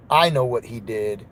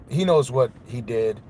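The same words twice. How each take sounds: First: I leaned on, lower and firm; "I" set against "he"; stress on I. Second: He leaned on, knows what he did flowing after; "he" set against "I"; stress on he. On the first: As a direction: claim it for yourself with "I". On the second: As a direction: point the blame at "he". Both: Real, not acted.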